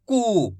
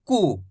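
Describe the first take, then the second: First: कु stretched into a long oo; long koo. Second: कु said short and low. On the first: Teacher models long कु for students. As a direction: draw out the vowel of कु. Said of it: "इसको थोड़ा खींच के पढ़ेंगे". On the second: Teacher models short कु for students. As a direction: clip the u of कु. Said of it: "छोटू ऊ की मात्रा है तो कैसे पढ़ेंगे". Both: Shown as a demonstration.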